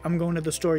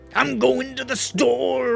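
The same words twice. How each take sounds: First: It is said in an ordinary speaking voice. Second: It is growled with an added 'ah' after words. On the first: "if you're gonna say" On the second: "after every word, you say like"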